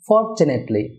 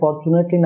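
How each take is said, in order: First: The stress is on the first syllable. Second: The stress is not on the first syllable. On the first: The speaker calls it right. "এখানে stress হবে ফরে" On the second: The speaker calls it wrong. "Fortunately না হয়ে"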